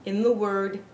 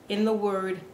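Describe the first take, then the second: No difference in how they are said.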